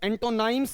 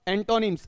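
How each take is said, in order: First: The last syllable sounds like 'nimes'. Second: The last syllable sounds like 'nims'. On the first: The speaker calls it wrong. "एंटोनाइम्स नहीं होगा" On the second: The speaker calls it right. "क्या बनेगा ये आपका? एंटोनिम्स बनेगा"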